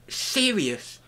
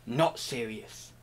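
First: High, slow, solemn "Serious". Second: Low, soft, slow "not serious". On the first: Contrasting serious and not serious, a high slow "Serious". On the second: Contrasting serious and not serious, a low soft "not serious". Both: Shown as a demonstration. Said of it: "I'm so serious about it that I'm not serious".

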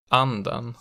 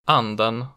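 First: Anden with pitch rising into a peak on the stressed vowel; accent two pitch. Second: Anden with an immediate pitch peak; accent one pitch. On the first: Teacher playing minimal pairs, anden with later-peak accent two. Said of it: "the pitch rises into peak on the stressed vowel". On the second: Teacher playing minimal pairs, Anden with early-peak accent one. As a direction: say Anden with the single peak right at the start. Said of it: "The peak in accent one is immediate". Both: Shown as a demonstration.

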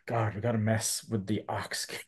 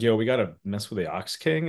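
First: Much softer, lightly acted dismay; Colonel Silver. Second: Lightly voiced casual proposal to the gang; a hint of a cartoon schemer pitching a plan; Pilaf. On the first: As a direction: mutter it quietly, dreading the job. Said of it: "Colonel Silver's like". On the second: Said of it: "Pilaf's like".

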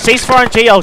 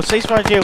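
First: High, loud cease-fire call; shouted order. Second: Said in the usual way. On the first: Real, not acted. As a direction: call it out over the gunfire. Stopping fire for the grenade launcher.

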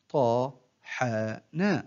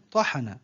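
First: One short syllable at a time, with pauses; broken into syllables. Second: Said in the usual way. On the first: Shown as a demonstration. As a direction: separate each syllable for a learner to copy. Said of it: "أقطع الكلمة إلى مقاطع قصيرة". (تقطيع الكلمة مقطعًا مقطعًا بوقفات) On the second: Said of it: "أقطع الكلمة".

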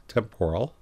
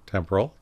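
First: "temporal" with the middle syllable stressed, tem-POR-al; alternate pronunciation. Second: Said in the usual way. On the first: Shown as a demonstration. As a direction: give "temporal" a full POR sound. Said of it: "Some people pronounce that temporal". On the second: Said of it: "That's also a correct pronunciation".

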